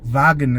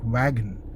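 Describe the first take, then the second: First: It begins with a V sound. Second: It begins with a W sound. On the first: The speaker calls it right. "W as in wagon" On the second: The speaker calls it wrong. "and not wagon"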